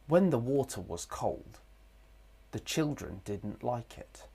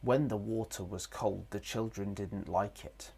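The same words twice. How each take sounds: First: There is a pause after the word cold. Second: The sentence runs on without any pause. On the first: The speaker calls it right. "We pause in between" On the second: The speaker calls it wrong. "we wouldn't say this sentence in one go, like this"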